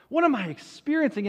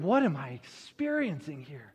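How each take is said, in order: First: Higher, quicker mock bewilderment; wondering. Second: Low, softer mock bewilderment; wondering. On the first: Moses wondering at the burning bush, higher, quicker bewilderment. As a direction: repeat the question more urgently. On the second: Moses wondering at the burning bush, low bewilderment. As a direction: puzzle it over under your breath. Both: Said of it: "is wondering".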